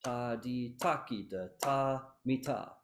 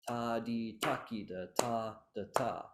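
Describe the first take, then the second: First: Measured chant, "ta" held before a quick "mi ta"; correct rhythm. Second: Chanted syllables with "ta, da, ta" in a lopsided lilt; six-eight feel. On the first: Teacher correcting the crushed ending, rhythm chanted correctly. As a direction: keep "ta mi ta" uncrushed, first "ta" given full length. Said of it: "But that's not correct". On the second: Teacher showing the incorrect reading, ending in six-eight feel. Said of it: "you subconsciously think six eight rhythm". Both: Shown as a demonstration.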